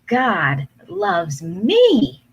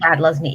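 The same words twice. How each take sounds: First: It is said slowly, taking time. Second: It is said quickly, rushed through.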